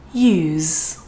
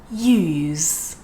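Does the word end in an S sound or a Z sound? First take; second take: Z; Z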